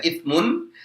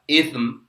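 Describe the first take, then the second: First: The word ends with a full mun syllable. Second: The word ends on a bare m sound. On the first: The word is read normally, not at a stop. "Kalau dibaca biasa seperti ini maka dibaca itsmun" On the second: The reader stops after this word. "kalau membacanya berhenti, maka dibaca itsm"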